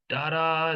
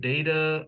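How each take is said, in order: First: "data" with ah in the first syllable; dah-ta pronunciation. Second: "data" opening like the word day; day-ta pronunciation. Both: Shown as a demonstration. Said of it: "two different sounds to that".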